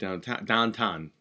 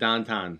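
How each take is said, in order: First: It is said in a plain general American accent. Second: It is said in a local Pittsburgh accent.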